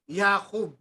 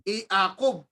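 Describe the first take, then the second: First: It begins with a consonant y sound. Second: It begins with a plain vowel sound. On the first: "nagiging consonant" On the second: "Dapat vowel siya eh"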